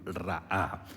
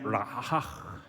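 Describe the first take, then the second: First: It is said the Spanish way, without a final sound. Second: It ends with a throaty guttural consonant. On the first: "ahí lo dije en, en español" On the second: "si fuéramos un hebreo, ... una consonante gutural"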